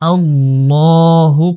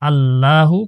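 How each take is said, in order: First: The L sound is heavy and full. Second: The L sound is thin and light. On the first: The speaker calls it right. "মোটা করে উচ্চারণ করতে হবে" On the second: The speaker calls it wrong. "পড়া যাবে না"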